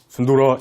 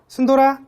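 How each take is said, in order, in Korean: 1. 이름을 낮고 깊은 목소리로 불러요. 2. 이름을 높고 밝은 목소리로 불러요. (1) "이렇게 하면 안 돼요. 강아지들은 이런 낮은 음은 공격적인 소리예요" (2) "조금 여자 같은 목소리로"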